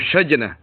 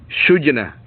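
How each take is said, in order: First: The first vowel is an a sound. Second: The first vowel is a u sound. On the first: "wa fathi" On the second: "bi dhammi awwalihi"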